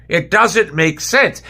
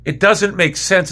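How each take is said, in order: First: Each word slow and heavy, disbelief; slow exasperated. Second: Said in the usual way. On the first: Real, not acted. Fan repeating his point to viewers, very slowly. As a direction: drag out every word of It doesn't make sense.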